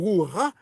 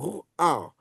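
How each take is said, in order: First: The 'a' vowel comes after the final h-sound. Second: The 'a' vowel comes before the final h-sound. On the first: The speaker calls it wrong. "il ne faut pas dire Ruha" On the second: The speaker calls it right. "il faut dire Ruah"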